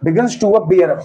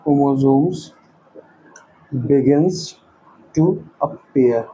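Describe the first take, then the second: First: Said in the usual way. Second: Low, slow, word by word; slow dictation. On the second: Real, not acted. Teacher writing notes for students, slow dictation. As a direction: leave long gaps between words as you write.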